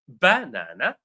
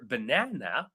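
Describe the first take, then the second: First: The stress is on the first syllable. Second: The stress is on the second syllable. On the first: The speaker calls it wrong. "syllable one" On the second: The speaker calls it right. "It's number two"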